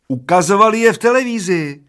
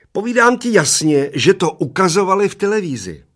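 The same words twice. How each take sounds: First: Put-on high, loud yell of a stubborn old man; little old man yelling over his friend; shouting old man. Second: Put-on high, loud shriek of a little old man; a tiny old man insisting at a shriek. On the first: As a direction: shout it back, higher and louder. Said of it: "křičel první dědek". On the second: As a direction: screech it as loud as you can. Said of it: "ječel strašně nahlas".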